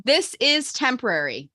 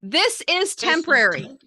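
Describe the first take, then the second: First: Slow, deliberate line for repeating; measured call-and-response lead; mantra lead. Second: High, slow, emphatic mantra; rousing call for the group to echo; enthusiastic. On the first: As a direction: lead a group mantra, unhurried. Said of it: "repeat the line after I say it". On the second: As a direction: lead the chant with real conviction. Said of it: "now with enthusiasm". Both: Shown as a demonstration.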